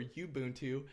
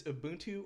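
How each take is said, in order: First: Ubuntu said as "you-BOON-too"; "you" pronunciation. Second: Ubuntu said as "uh-BOON-too"; "uh" pronunciation. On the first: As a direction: open Ubuntu with a y-glide, like "you". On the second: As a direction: open Ubuntu on a short, unstressed "uh". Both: Shown as a demonstration. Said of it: "I don't know if it's".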